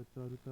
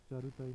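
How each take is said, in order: First: चारुता ending on ta; correct form. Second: चारुताई with extra final ee; wrong form. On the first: Teacher giving the correction, चारुता without final ee. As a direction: say चारुता as cha-ru-ta. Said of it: "होता है". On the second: Teacher showing learners the mistake, चारुताई with long tail. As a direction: say चारुताई as cha-ru-ta-ee. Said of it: "नहीं होता". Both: Shown as a demonstration.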